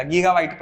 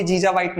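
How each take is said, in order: First: गीगाबाइट said with a hard g, gee-ga-byte; the correct गीगाबाइट, both hard g sounds clear; correct reading. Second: जीजाबाइट said with a j sound, jee-ja-byte; the mistaken जीजाबाइट, both g sounds turned into j; wrong reading. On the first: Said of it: "गीगाबाइट पढ़ेगा". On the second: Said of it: "इसको कोई जीजाबाइट नहीं पढ़ेगा". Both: Shown as a demonstration.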